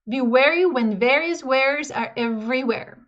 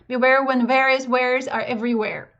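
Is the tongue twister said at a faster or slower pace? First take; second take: slower; faster. First: It is said at a slower, ordinary pace. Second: It is said at a quicker pace.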